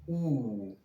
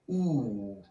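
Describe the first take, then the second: First: The vowel is made far back in the mouth. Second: The vowel is made far back in the mouth.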